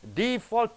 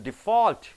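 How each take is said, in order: First: The stress is on the first syllable. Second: The stress is on the last syllable. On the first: It is used as a noun. "first syllable if you stress" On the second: It is used as a verb. "last syllable if you stress"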